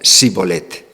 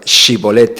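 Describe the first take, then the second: First: The word begins with an 's' sound. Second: The word begins with an 'sh' sound. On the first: This is how the Ephraimites said it. "eles dicían Sibolete ... en lugar de unha alveopalatal pronunciaba unha fricativa alveolar" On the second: This is how the Gileadites said it. "eran incapaces de pronunciar Shibolete"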